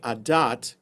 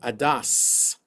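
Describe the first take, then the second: First: The word ends with a t sound. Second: The word ends with an s sound. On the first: This follows the Israeli reading tradition. "I pronounce it adat because that's the way I learned how to read Hebrew. I learned Hebrew uh, the Israeli way"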